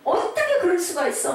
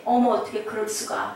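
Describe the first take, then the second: First: Higher, indignant protest; acted anger. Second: Mildly stunned, unable to accept it; stunned disbelief. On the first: Bereaved parent at the second stage, acted indignant outburst. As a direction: protest in acted outrage, pitched up. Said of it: "막 불같이 화가 나". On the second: Acted. Parent hearing the news at home, understated stunned disbelief. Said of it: "처음에는 놀래고 인정하고 싶지 않고".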